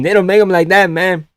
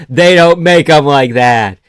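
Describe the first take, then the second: First: Higher, put-on Mexican accent. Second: Loud, slow and emphatic; emphatic objection. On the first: Streamer repeating the Uncrustable objection, higher mock Mexican accent. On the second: Real, not acted. Streamer disputing a zero sugar Uncrustable, slow loud objection. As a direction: spell it out slowly and loudly. First take, before redoing it in accent.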